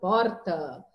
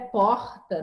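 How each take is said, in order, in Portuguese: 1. O R é falado forte, estilo sulista. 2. O R é falado do jeito carioca. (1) "no Rio Grande do Sul, é, é um R mais forte" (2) "no Rio de Janeiro é porta"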